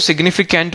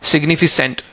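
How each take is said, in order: First: The third syllable is said with a 'k' sound. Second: The third syllable is said with an 's' sound. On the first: The speaker calls it right. "मैं इसको सिग्निफिकेंट बोल रहा हूँ" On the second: The speaker calls it wrong. "सिग्निफिकेंट ना read करके सेंट read कर रहे हो"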